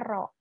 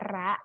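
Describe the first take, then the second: First: The vowel sounds like a rounded 'o'. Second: The vowel sounds like an open 'a'. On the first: The speaker calls it right. "tapi dibacanya ro" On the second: The speaker calls it wrong. "bukan dibaca ra"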